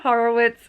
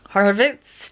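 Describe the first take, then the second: First: The w is pronounced like a w. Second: The w is pronounced like a v. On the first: This is how the name is commonly said locally. The speaker calls it wrong. "I say Horowitz" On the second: This is the traditional pronunciation of the name. The speaker calls it right.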